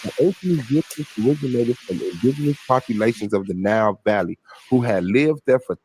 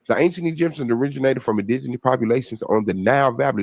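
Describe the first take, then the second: First: It is read at a slower pace. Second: It is read at a faster pace.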